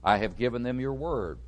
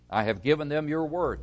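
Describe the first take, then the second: First: Said in the usual way. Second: WORD given firm weight at the end; stress on WORD. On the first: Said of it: "There's the emphasis again". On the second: Real, not acted. Preacher requotes verse fourteen to the congregation, stressing WORD. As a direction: land the emphasis on "word". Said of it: "There's the emphasis again on the word".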